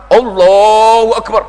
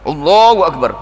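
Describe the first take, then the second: First: Drawn-out, loud Allahu Akbar meant to be heard; loud showy prayer call. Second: Said in the usual way. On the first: Retold or imitated. Preacher mimics show-off praying loudly for neighbours. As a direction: belt it so the neighbours hear.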